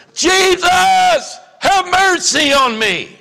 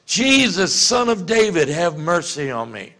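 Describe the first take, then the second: First: High, loud desperate cry; yelling out. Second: Slightly raised cry, retold; half-hearted call to Jesus; mild mock yell. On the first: Retold or imitated. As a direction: shout it over a crowd. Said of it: "who's gonna start yelling". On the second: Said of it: "yelling at the top of his lungs".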